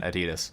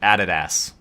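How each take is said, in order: First: The word has a standard, non-Australian pronunciation. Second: The word has an Australian pronunciation. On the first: "the clothing brand Adidas" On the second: "In Australia, they pronounce it Adidas"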